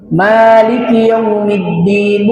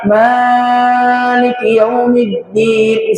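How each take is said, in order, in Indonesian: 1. Vokal setelah m ditahan agak panjang. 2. Vokal setelah m ditahan terlalu panjang. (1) "kita cara bacanya memanjangkan huruf mim" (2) "bukan juga Maliki Yaumiddin, salah"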